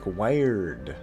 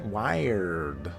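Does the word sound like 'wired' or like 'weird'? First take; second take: wired; wired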